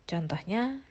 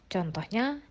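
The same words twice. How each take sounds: The two takes are said the same way.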